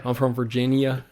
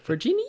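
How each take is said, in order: First: Lightly exaggerated American Southern accent; put-on Southern drawl. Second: Very high, rising Australian-style question; imitated Australian reaction. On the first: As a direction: introduce yourself with a touch of Southern drawl. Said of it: "I would turn on the accent very hard". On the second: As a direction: echo it as an astonished Australian, pitched way up. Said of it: "They're like".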